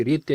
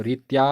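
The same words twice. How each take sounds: First: रीत्य ending in a short "ya"; correct pronunciation. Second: रीत्या ending in a long "aa"; wrong pronunciation. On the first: Teacher contrasting the correct form, रीत्य with short final vowel. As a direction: keep the end of रीत्य short. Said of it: "शुद्ध प्रयोग है". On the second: Teacher showing the wrong form, रीत्या with long final vowel. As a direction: stretch the end of रीत्या, "reet-yaa". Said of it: "अशुद्ध प्रयोग है". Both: Shown as a demonstration.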